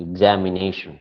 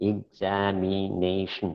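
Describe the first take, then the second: First: Said in the usual way. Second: Examination slowly in five beats, ig-za-mi-nay-shun; syllable by syllable. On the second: Shown as a demonstration. Teacher counting five syllables for the class, syllable by syllable. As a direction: stretch out each syllable of examination. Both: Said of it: "five syllables".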